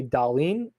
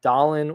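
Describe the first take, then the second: First: "Dahlin" said slowly as da-LEEN; own pronunciation. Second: "Dahlin" said DAH-lin; other pronunciation. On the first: Podcaster giving his own version, "Dahlin" as da-LEEN. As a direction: lean on a long ee in the second syllable of "Dahlin". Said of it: "I say Dahlin". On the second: Podcaster conceding the other version, "Dahlin" as DAH-lin. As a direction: put the stress on the first syllable of "Dahlin", short i after it. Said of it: "you can say". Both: Shown as a demonstration.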